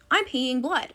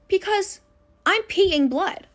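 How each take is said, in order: First: Said in the usual way. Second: Put-on panicked kid. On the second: Panicked girl calling mom.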